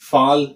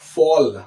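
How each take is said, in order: First: The vowel is said with unrounded, spread lips. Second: The vowel is said with rounded lips. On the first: The speaker calls it wrong. "That's absolutely wrong" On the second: The speaker calls it right. "round shape look రావాల్సింది"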